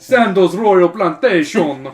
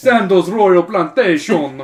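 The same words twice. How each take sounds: First: It is said in a Jamaican accent. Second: It is said in a Jamaican accent.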